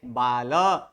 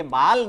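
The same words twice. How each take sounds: First: बाल as baa-la, dropping low on the last vowel; right, final vowel sounded. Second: बाल as one syllable, ending on l; wrong, vowel dropped. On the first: Teacher giving students the correct reading, full final vowel. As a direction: add a full short a after the l in बाल. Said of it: "क्या है?". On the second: Teacher contrasting wrong reading for students, vowel dropped. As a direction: say बाल with nothing after the l. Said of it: "ये बाल नहीं है". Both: Shown as a demonstration.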